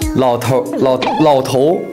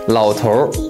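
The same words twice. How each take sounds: First: The word ends without any r-coloured sound. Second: The word ends with an r-coloured erhua sound. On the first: The speaker calls it right. "不加儿化音挑战" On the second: The speaker calls it wrong.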